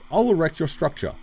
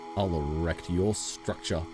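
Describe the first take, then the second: First: It is said in a plain, businesslike tone. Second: It is said in a suggestive, flirtatious tone. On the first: A professional offer to build something. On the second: A sexual innuendo.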